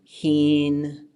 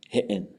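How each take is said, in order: First: The vowel is long with a high tone. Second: A glottal stop breaks the vowel in the middle. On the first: This is how it is said today. "as a long high vowel" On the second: Speakers of an older dialect said it this way. "it would have a glottal stop in the middle instead of having a high tone"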